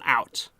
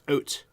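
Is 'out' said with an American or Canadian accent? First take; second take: American; Canadian. First: The vowel sounds like the American pronunciation. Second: The vowel sounds like the Canadian pronunciation. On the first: The speaker calls it wrong. "Americans on the call, it's not out" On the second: The speaker calls it right. "It's out. We say Canada out. Okay, that's the right way to say it"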